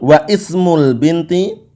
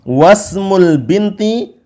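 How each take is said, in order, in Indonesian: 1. Huruf 'i' setelah 'wa' diucapkan terpisah. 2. Huruf 'i' setelah 'wa' dihilangkan dan disambung. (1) "enggak boleh kita baca" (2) "apabila disambung di tengah kalimat ... maka dia hilang"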